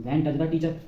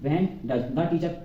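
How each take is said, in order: First: Said in the usual way. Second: When does the teacher, drawn out word by word; slow dictation. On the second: Shown as a demonstration. Teacher dictating the English question slowly to the class. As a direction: dictate it very slowly for students to copy. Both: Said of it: "इसके बाद लगा देंगे does".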